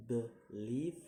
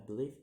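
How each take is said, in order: First: "believe" in two separate beats, second one rising; second-syllable stress. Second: Said in the usual way. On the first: Shown as a demonstration. Teacher giving an example, "believe" split with rising final syllable. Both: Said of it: "put on the second".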